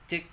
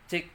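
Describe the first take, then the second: No difference in how they are said.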